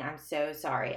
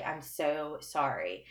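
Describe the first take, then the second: First: A touch of retold sobbing; crying apology. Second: Softer, slower mock teary repeat; quietly retold weeping plea; crying apology. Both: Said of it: "starts crying and saying".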